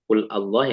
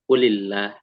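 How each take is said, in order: First: The two words are said separately without linking. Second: The words are joined with an added i sound. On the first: "Padahal aslinya qul Allah" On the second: "yang bawahnya qulillah ya. Ada li-nya gitu"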